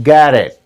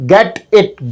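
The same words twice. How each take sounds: First: "get it" as geddit, lower; linked native sound. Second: "get it" with both t's hard and clear; separate words. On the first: Teacher correcting to the native form, linked. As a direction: link "get it" with a tapped t. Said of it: "not get it". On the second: Teacher showing what not to say, unlinked. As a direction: say "get it" slowly as two words. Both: Shown as a demonstration.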